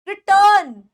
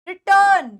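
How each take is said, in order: No difference in how they are said.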